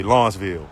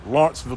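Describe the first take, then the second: First: Said in the usual way. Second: "Lawrenceville" in a higher-pitched Southern rendering; Southern pronunciation. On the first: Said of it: "We say Lawrenceville, where I'm from". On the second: Shown as a demonstration. Roofer showing viewers how the South says "Lawrenceville", higher Southern pronunciation. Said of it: "That's how they say it in the South".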